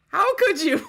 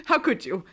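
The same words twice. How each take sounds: First: Could punched high and loud; stress on could. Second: Said in the usual way. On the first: Real, not acted. Betrayed sibling scolding him, stress on could. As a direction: hit the word could in disbelief.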